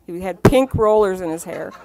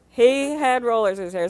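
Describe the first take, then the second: First: Laughing through the words, a bit louder; can't hold back the laugh at the memory. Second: Said in the usual way. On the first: Real, not acted. Laughing disbelief at [name]'s rollers.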